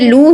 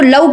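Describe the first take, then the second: First: The syllable is said as 'loo'. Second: The syllable is said as 'lav'. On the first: The speaker calls it right. "जब आपने पेश के साथ पढ़ा है तो ये लू ही है" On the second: The speaker calls it wrong. "आप इसको लव कह देते हैं, जबकि लव नहीं है"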